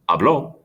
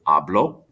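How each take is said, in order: First: The stress is on the last syllable. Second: The stress is on the first syllable.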